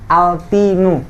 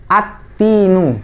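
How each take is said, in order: First: The 'l' is pronounced clearly before the 't'. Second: The 'l' is silent and the 't' is doubled. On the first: The speaker calls it wrong. "itu salah" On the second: The speaker calls it right. "alif lamnya melebur atau tidak dibaca"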